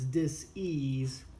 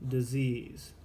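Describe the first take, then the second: First: The word is split into two separate parts. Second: The word is said as one smooth unit. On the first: The body is not at ease. "I pronounce it as dis-ease" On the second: An illness has already set in. "and not disease"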